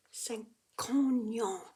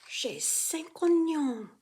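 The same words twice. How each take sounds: First: A light K before "oignons"; little K sound. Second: "cinq oignons" with a light K linking into "oignons", slow; little K sound. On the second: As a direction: let a small K slide into "oignons". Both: Shown as a demonstration. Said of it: "Avec a little K sound".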